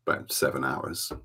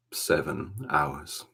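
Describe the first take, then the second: First: Said in the usual way. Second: "Seven hours" drawn out slowly; slow emphatic repeat. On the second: Real, not acted. Repeats the makeup time for emphasis.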